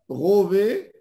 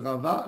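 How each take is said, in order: First: The vowels are o and e, Ashkenazi style. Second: The vowels are both a, Sephardi style. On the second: "nous, les Sfarades, on dit Rava"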